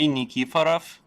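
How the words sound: The surname is said with Russian pronunciation. "That that would be like the Russian way of saying it"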